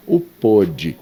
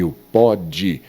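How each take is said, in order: First: "pôde" with a closed O, drawn out slowly; closed stressed O. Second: "pode" with an open O, drawn out slowly; open stressed O. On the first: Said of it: "o pôde seria". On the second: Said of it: "O pode é presente". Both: Shown as a demonstration.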